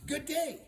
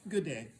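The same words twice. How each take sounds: First: High, loud GOOD DAY called out; hearty greeting. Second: Reserved reply. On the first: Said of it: "he said". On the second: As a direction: answer "Good day" without his exuberance. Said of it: "She went". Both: Acted.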